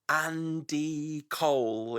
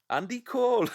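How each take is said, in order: First: The name is said in a neutral accent. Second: The name is said in a Newcastle accent.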